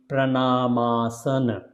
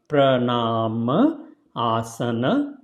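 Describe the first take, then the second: First: The two parts are merged into one word. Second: The two parts are said as separate words. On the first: "when you put together" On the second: "when you will say separately"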